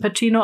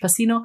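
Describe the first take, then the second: First: The name is said the Italian way. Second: The name is said the American way.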